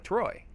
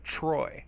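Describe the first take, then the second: First: It starts with a clear t sound. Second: It starts with a ch sound. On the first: "if you say like T R O, like Troy, it's easier" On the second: "we say like our T Rs is like a ch sound"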